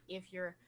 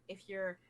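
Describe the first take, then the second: Both takes have the same delivery.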